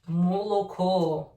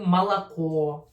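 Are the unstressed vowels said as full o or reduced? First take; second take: full o; reduced. First: Every o is pronounced as a full, clear o. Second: The unstressed o's are reduced to an a sound. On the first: This is how people speak in some regions. "they still uh, pronounce it very clearly" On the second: This is the common reduced pronunciation. "actually malako"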